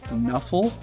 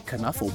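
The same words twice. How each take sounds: First: The word starts with an N sound. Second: The word starts with a K sound. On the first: "you don't say the K" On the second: "Unless you want to say Knuffle Bunny. That's pretty funny"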